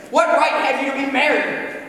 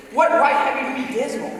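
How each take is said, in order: First: Sneering, disdainful challenge; scornful question. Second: Light, laughing playful retort; gaily laughing. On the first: Scrooge sneering at nephew's merriment. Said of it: "said Scrooge". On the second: Nephew laughingly turning Scrooge's words back on him. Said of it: "returned the nephew gaily". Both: A narrator's reading.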